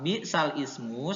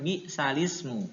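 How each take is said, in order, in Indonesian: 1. Ismu diucapkan terpisah dengan vokal awalnya sendiri. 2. Lam mengambil vokal i, menyambung menjadi salismu.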